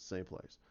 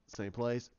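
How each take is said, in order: First: "Same place." low and very soft; confirming answer. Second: "Same place?" softly, rising at the end; questioning. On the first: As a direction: answer "Same place." quietly, dropping the pitch. His answer echoing her question. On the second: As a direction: ask "Same place?" with an upward lift. She asks, he echoes as answer. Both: Retold or imitated.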